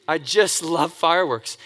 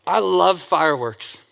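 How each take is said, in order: First: Slow "I just love fireworks" landing on "fireworks"; stress on fireworks. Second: Slow "I love fireworks" leaning on "I"; stress on I. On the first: Repeating his passion to the audience, stress on "fireworks". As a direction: let "fireworks" carry the stress. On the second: Telling the audience his passion, stress on "I". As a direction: put the weight on "I" in "I love fireworks". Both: Shown as a demonstration.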